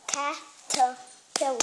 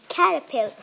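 First: "Caterpillar" slowly, one syllable at a time; broken into syllables. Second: Said in the usual way. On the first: Shown as a demonstration. Child teacher breaking a word down for viewers, syllable by syllable. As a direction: separate each syllable of "Caterpillar". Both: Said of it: "Let's break it down this time".

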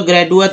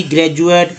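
First: ग्रेजुएट wrongly said with a hard D, "gra-doo-at"; D pronounced hard. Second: ग्रेजुएट with a J sound, "gra-joo-ate"; D pronounced as J. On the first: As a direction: swap the J in ग्रेजुएट for a D. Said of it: "ड तो बोलते हो". (ग्रेजुएट में ज की जगह ड, "ग्रैडुएट") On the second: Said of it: "डी को ज उच्चारण किया गया है". (ग्रेजुएट में डी का उच्चारण ज) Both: Shown as a demonstration.

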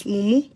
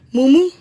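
First: Said in the usual way. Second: Loud insult. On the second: Real, not acted. Ranting at Victor, yells mumu at him. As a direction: throw the insult at him at full voice.

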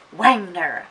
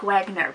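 First: "Wagner" said as "Wangner", with an N sound before the G; "Wagner" with a nasal "ng" in the middle; pronouncing the N. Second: "Wagner" said as plain "Wag-ner", with a hard G; "Wagner" with no extra N sound; plain pronunciation. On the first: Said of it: "there's an N before the G as well". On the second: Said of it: "It's like Wagner". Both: Shown as a demonstration.

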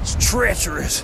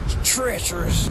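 First: Treacherous said in a put-on dramatic voice, stretched; mock dramatic. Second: Said in the usual way. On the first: Vlogger on a rocky path hams up treacherous in a put-on voice. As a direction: ham up treacherous like a movie.

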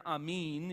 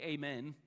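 First: "amen" said ah-MEEN; Greek pronunciation of amen. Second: "amen" said ay-MEN; English pronunciation of amen. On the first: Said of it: "Greek term amen". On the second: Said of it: "It means essentially amen". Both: Shown as a demonstration.

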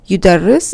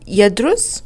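First: يدرس said yudarris, with the r doubled; shadda stressed. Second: يدرس said yadrus, short a and no doubled consonant; form one reading. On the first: Teacher showing the form two shadda, doubled r. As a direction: lean on the doubled r in يدرس, yu-dar-ris. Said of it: "form two verbs have a shadda". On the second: Teacher reading the form one verb, yadrus plainly. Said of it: "and the مصدر is الدراسة". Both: Shown as a demonstration.

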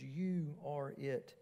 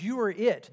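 First: Soft, slow, drawn-out You are it; You and are stretched out, hushed; quiet, stating fact. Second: YOU punched louder, pitch up; You said loud and emphatic. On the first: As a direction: say You are it softly and slowly, as plain fact. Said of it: "the word are, there stresses being". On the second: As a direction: hit the word You hard and firm. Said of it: "you here is also emphatic". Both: Shown as a demonstration.

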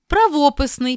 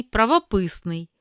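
First: Правописний as pra-VO-pysnyi; stress on VO. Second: Правописний as pravo-PYS-nyi; stress on PYS. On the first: Teacher reading double-stress words, VO stressed in Правописний. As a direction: stress the second syllable of Правописний, pitched high. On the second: Teacher giving the other variant, PYS stressed in правописний. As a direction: stress the third syllable of правописний. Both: Shown as a demonstration. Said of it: "слова із подвійним наголосом".

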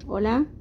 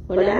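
First: Said in the usual way. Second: Loud, amplified through a mic; through the microphone. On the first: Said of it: "Si está abajo y digo". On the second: Shown as a demonstration. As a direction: speak into the live karaoke mic. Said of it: "pero si lo subo".

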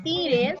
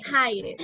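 First: Tired read as it looks, "tee-red" with a Spanish tapped r; spelling pronunciation. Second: Tired said "tai-erd" with the English long i; English pronunciation. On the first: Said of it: "Se escribe tired". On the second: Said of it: "pero se pronuncia tired". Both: Shown as a demonstration.

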